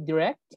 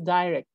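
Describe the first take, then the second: First: The word is said with an American pronunciation. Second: The word is said with a British pronunciation. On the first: "the American people say direct" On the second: "the British people say direct"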